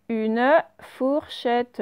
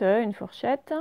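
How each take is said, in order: First: Drawn-out dictation pace; slow dictation. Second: Said in the usual way. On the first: Shown as a demonstration. Teacher dictating the word to her class, slowly. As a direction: stretch the words for the pupils.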